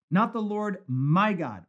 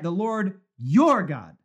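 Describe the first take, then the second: First: "not" punched, slow; stress on not. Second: "your" leaned on, slow and louder; stress on your. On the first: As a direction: press on "not" before "the Lord my God". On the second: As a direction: hit "your" in "The Lord your God". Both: Shown as a demonstration. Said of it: "unexpected change of pronoun".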